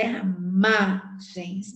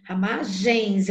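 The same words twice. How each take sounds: First: "ramagens" slowed and broken after a heavy MA; long stressed MA in "ramagens". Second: "Ramagens" slowed, with the last syllable "gens" fully sounded; slow "Ramagens", ending kept whole; uncut final syllable. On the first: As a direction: hit the MA in "ramagens", then drop "gens" off separately. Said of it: "contar só até a sílaba tônica". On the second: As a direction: draw out "Ramagens" right through to "gens". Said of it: "eu não corto". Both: Shown as a demonstration.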